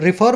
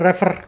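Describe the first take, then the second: First: The first vowel is a short 'i'. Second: The first vowel sounds like 'ay'. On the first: The speaker calls it right. "तो रिफर बोलते हैं इसको, सही तरीके से बोलना चाहिए" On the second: The speaker calls it wrong. "कुछ लोग बोलते हैं रेफर। ... रेफर नाम का तो कोई वर्ड है नहीं"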